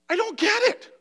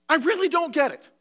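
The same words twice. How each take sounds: First: High, pleading disbelief; a high cry of not understanding; bewildered plea. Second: Firm "I really don't get it" with weight on "really"; stress on really. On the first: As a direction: ask it like it truly baffles you. Emotional preacher, bewildered plea. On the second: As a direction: punch "really" with conviction. Repeats with heavier stress. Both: Real, not acted.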